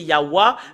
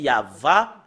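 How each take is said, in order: First: The second syllable starts with a w sound. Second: The second syllable starts with a v sound. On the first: This is how Europeans say it. "d'après les Européens, c'est Yahwa" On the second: This is the ancient Hebrew way of saying it. "si nous revenons à l'hébreu ancien, c'est Yahva"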